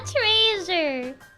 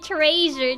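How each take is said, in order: First: The word is pronounced in an odd, imitated way. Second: The word is pronounced in the ordinary way. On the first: The speaker calls it wrong. "not treasure" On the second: The speaker calls it right. "The word is clearly treasure"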